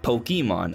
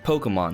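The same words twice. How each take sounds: First: The second syllable carries a strong emphasis. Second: The second syllable carries no special emphasis. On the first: The speaker calls it wrong. "not Pokemon. I know there's a little accent on the E, which is why I'm sure a lot of people put an emphasis there" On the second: The speaker calls it right. "they pronounce it as Pokemon"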